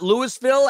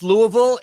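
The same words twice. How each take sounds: First: Louisville with the S sounded, LEW-is-vil; mistaken pronunciation. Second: Louisville with a silent S, LOO-uh-vul; correct pronunciation. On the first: Host showing what it's not, Louisville said as Lewis-ville. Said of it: "It's not Louisville". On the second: Host confirming the name to cohost, Louisville with silent S. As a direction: say Louisville the local way, as LOO-ee-vil. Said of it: "it's pronounced Louisville". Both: Shown as a demonstration.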